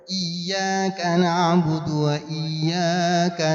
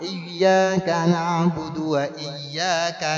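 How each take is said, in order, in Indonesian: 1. Vokal 'iyya' yang kedua dibaca lebih panjang daripada yang pertama. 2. Kedua vokal 'iyya' dibaca dengan panjang yang sama. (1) "ini udah enggak pas tuh. ... iya pertama dengan iya kedua panjangnya enggak sama" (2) "Kalau iya pertamanya iyyaka, maka iya kedua juga sama"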